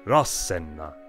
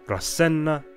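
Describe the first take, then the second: First: The stress falls on the first syllable. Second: The stress falls on a later syllable. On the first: The speaker calls it right. "heavy accent on their first syllable" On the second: The speaker calls it wrong. "Not Rasenna"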